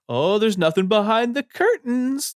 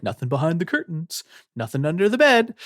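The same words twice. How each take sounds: First: Put-on patronize her like she's a nine-year-old; patronizing. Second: Put-on high-pitched, quicker reassurance, as to a child; lightly acted attempt to soothe a scared kid; calming her down. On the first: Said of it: "patronizingly being like". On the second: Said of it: "legitimately trying to calm her down".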